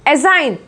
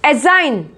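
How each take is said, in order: The two takes are said the same way.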